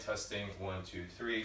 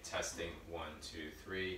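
First: The voice is about five meters away. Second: The voice is about six meters away. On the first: "5 meters away" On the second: "6 meters away"

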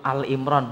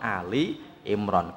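First: The first word is short, said as 'Al'. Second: The first word has two syllables, said as 'Ali'. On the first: The speaker calls it wrong. "karena ada orang nyebut Al Imron" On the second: The speaker calls it right. "bukan Ali Imron, Ali Imron"

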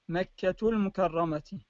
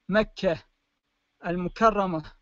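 First: The words are joined; the first ends in t. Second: The words are separated; the first ends in h. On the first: "أما إذا وصلت الكلمتين مع بعضهما تنطق تاء" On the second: "إذا فصلنا أو لفظنا كل كلمة مستقلة عن الأخرى تلفظ التاء المربوطة تلفظ هاء بهذا الشكل"

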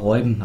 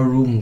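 First: The first vowel sounds like 'oy'. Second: The first vowel sounds like 'oo'. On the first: The speaker calls it right. "Der Kerl heißt aber Räuben" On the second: The speaker calls it wrong. "ganze Zeit mal Ruben gesagt"

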